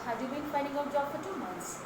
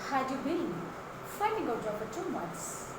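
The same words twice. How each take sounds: First: The word 'had' is said weakly, without stress. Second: The word 'had' is said strongly, with stress. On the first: The speaker calls it wrong. "many are speaking, I mean asking that" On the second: The speaker calls it right. "Give emphasis to had"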